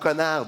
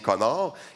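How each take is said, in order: First: It is said with a standard French accent. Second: It is said with a Québécois French accent. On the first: "le mot connard" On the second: "l'accent québécois, c'est juste prononcé différemment"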